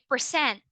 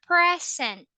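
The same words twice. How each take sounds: First: It is said the way of the verb. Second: It is said the way of the noun. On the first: It means to perform or show. "it means to perform, to do something" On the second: It means a gift. "you are referring to the noun, which is a gift"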